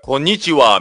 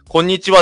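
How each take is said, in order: First: It is said with a foreign accent. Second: It is said with a native Japanese accent. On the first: "海外の人ってなんか、…こんにちはみたいな感じで" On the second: "こんにちはって言わずに"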